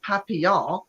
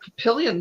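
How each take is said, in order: First: It is said with a French pronunciation. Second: It is said with an American English pronunciation. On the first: This is the original form of the place name. "It's not Papillon" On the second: This is how locals say the place name. "we mispronounce all of them"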